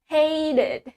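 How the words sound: The t is pronounced like a d. "In American, we say T S D"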